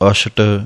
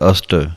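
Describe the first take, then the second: First: The middle consonant is an 'sh' sound. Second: The middle consonant is a plain 's' sound. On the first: The speaker calls it wrong. "ਸਸੇ ਪੈਰ ਬਿੰਦੀ ਲਾ ਕੇ ਨਹੀਂ ਕਹਿਣਾ ਹੈ" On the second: The speaker calls it right. "ਸਸੇ ਦਾ ਉਚਾਰਨ ਇਸੇ ਤਰ੍ਹਾਂ ਹੈ"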